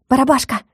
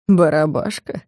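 First: Calling out. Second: Low, hushed mocking question; mocking ear whisper. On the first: Calling the spirit. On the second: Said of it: "на ухо спросил меня насмешливо". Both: A narrator's reading.

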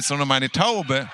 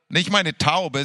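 First: Taube stressed, meine kept light. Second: Meine stressed, Taube left flat; wrong stress on meine. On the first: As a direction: land the weight on Taube. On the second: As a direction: lean on the word meine, not Taube. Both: Shown as a demonstration. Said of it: "Das ist wichtig".

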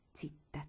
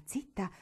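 First: Whispered zitta, much softer; hushing whisper. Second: Said in the usual way. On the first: Acted. Teresa hushing Marigold on the stairs, whispered. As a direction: shush her under your breath. Hushing, walls have ears.

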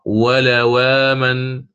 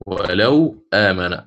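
First: ولو آمن read without transfer, slow; plain recitation. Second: ولو آمن read as "wala-amana", hamza vowel moved onto the waw; naql transfer. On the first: Teacher reading ولو آمن plainly as Warsh does not. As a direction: recite ولو آمن holding the long vowel. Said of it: "سيقرأ". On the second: Teacher demonstrating Warsh's transfer on ولو آمن. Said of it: "ينقل". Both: Shown as a demonstration.

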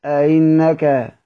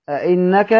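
First: أئنك slowly, second hamza between hamza and ya; eased hamza. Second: أئنك with a distinct stop on the second hamza; fully sounded hamza. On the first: Teacher contrasts two readings, eased hamza in أئنك. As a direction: soften the second hamza of أئنك into a glide, falling at the end. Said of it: "هنطقها إزاي مسهلة؟". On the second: Teacher contrasts two readings, full hamza in أئنك. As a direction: articulate both hamzas of أئنك, ending on a rise. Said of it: "يبان لك المحقق والمسهل". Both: Shown as a demonstration.

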